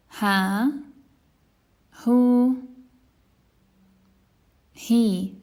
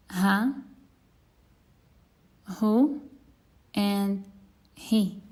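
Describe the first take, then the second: First: "Ha, hu, he" with long vowels. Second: "Ha, hu, he" short and clipped; short vowels. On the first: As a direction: stretch each vowel after ha. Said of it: "let's practice with the vowels". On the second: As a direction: cut each vowel short. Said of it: "And now the short ones". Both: Shown as a demonstration.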